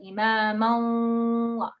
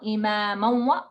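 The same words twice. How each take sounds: First: The merged nasal sound is held for two counts. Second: The merged nasal sound is cut short. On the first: The speaker calls it right. "Like you got to sit on it. Count of two" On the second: The speaker calls it wrong. "Not imaman"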